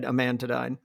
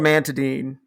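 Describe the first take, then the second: First: It sounds like separate words, 'a man to dine'. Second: It is said smoothly as one drug name. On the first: This is the speaker's private joking version. "now I pronounce it in my head" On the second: This is the drug's real name. "but it's called"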